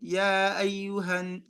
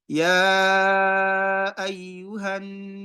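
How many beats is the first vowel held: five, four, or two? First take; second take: two; five. First: The opening vowel is held for two beats. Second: The opening vowel is held for five beats. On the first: "let me read it with two harakat" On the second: "Five harakat with my pace"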